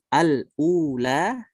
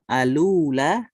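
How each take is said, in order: First: A glottal stop separates the article from ula. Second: The article's l links straight into ula. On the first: "seperti Hafs" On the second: "nakal alula"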